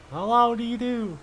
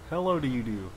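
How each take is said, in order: First: Playful high hello; high-pitched greeting. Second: Lower, softer repeat of hello; low greeting. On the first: Gamer playing with a greeting, high-pitched. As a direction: greet in a raised, drawn voice. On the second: Gamer repeating a playful greeting, low and soft. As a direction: drop the greeting low and quiet. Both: Pretend.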